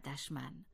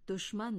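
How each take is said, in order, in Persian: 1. مصوت اول صدای o نیست. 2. مصوت اول صدای o است. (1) "نه دشمن" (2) "دشمن درست است"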